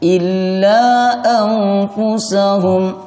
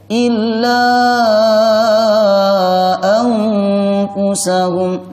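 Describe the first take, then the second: First: The vowel of illa is held briefly. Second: The vowel of illa is held very long. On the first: "Boleh dibaca satu alif" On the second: "atau tiga"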